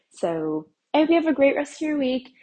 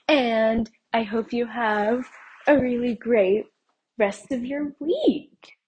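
First: Said in the usual way. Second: Drawn-out sing-song goodbye. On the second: Real, not acted. Sing-song farewell to listeners.

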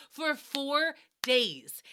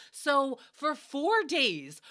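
First: "four days" even slower, drawn; stress on four. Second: Four drawn out slow; stress on four. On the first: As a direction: stretch "for four days" heavily. Slower, stronger repeat. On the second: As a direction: linger on "four days" in disbelief. Slow emphatic disbelief. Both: Real, not acted.

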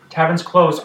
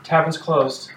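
First: Firmer tavern's closed. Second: Curt announcement. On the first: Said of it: "People are like". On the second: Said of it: "She says". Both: Acted.

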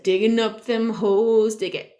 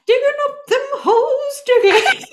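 First: Slow sung hook in the usual register; sung, plain, stretched-out song refrain; singing. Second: Squeaky-high, loud mock singing; sung, up three octaves. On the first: Retold or imitated. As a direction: sing it casually, like a kid at play. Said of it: "to him was singing in French". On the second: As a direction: sing it absurdly high, laughing. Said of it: "take it up three octaves".

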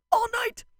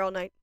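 First: Very high, loud squeal; excited exclamation. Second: Said in the usual way. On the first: Real, not acted. Fan saying she'd stay at the club, excited squeal. Exclaimed repeat about dancing all night.

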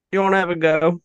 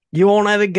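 First: A clumsy, higher mock Australian accent; a half-hearted Aussie challenge; bad Australian accent. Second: A much higher, louder hammed-up Australian accent; louder Australian accent retry. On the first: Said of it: "my horrible impersonations". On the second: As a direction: shout it like a rowdy Aussie. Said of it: "Let me see".

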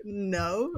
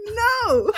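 First: Said in the usual way. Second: High, loud, half-laughing refusal; emphatic refusal. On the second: Retold or imitated. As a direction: shoot down an outrageous request. Second, stronger refusal to pay.

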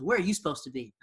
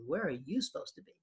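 First: WHERE stressed, falling at the end; retold question, weight on "Where", falling tune; question led by WHERE. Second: YOU stressed, rising at the end with a laugh; amused retort, weight on "you", tune lifting; question thrown back. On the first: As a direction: lean on "Where" and let the question drop. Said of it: "and she goes". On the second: Retold or imitated. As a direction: punch "you" to turn the question back, softly. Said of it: "I said".

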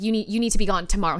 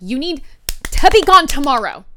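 First: Said in the usual way. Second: Much louder and higher retold order; forceful, punched-out demand; emphatic repeated order. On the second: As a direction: raise the voice to make him hear it. Repeats order after he says what.

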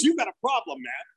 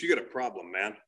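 First: Higher, livelier challenge; retold confrontation. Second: Low-pitched retold challenge; retold confrontation. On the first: Comic retelling neighborhood saver at mom's door, higher challenge. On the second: Comic retelling neighborhood saver at mom's door, low challenge. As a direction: imitate a guy confronting you, voice dropped.

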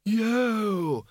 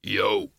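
First: Put-on high, drawn-out, thin old-wizard cheer; Windle's cheer. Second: Low, short bogeyman cheer; Schleppel's cheer. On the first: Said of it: "said Windlepoons". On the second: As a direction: say it low and unhurried as a big creature. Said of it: "said Schleppel". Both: A narrator's reading.

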